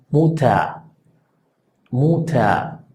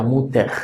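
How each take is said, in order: First: Muta: la er final suena casi a, sin r; r final vocálica. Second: Muter: con r final pronunciada; así no, muter con r; pronunciación incorrecta. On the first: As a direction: di muta, terminando en a. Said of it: "casi como si fuera una A". (muta con final vocálico) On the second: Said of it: "no suena muter". (muter con r marcada, la forma equivocada) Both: Shown as a demonstration.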